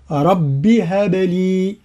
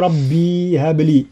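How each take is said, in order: First: "رب هب لي" said very slowly with a short رب, no long vowel after the ب; no madd on رب. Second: "ربي هب لي" slowly, with an extra ي added to رب; wrong form with ي. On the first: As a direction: join "رب هب لي" with no madd. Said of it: "وإذا وصلنا فليس فيها مد". ("رب هب لي" بلا مد) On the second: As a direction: say "ربي" as in everyday speech, the mistake. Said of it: "ولا نقول". ("ربي هب لي" خطأ بإضافة الياء) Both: Shown as a demonstration.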